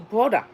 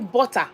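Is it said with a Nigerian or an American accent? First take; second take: American; Nigerian. First: It is said with an American accent. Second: It is said with a Nigerian accent.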